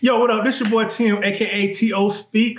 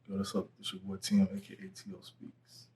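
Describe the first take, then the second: First: It is said excitedly, with high energy. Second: It is said calmly, with low energy.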